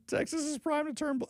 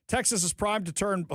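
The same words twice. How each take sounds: First: Higher, mocking repeat still half laughing; incredulous mock echo of the quote; mocking disbelief. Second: Said in the usual way. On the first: Real, not acted. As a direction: parrot it back in disbelief.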